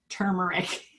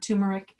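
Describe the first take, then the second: First: The first syllable sounds like 'tur' with r. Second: The first syllable sounds like 'too' without r. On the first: The speaker calls it right. "it's turmeric" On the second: The speaker calls it wrong. "not turmeric. It's not a tuma"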